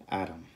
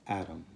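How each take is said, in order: No difference in how they are said.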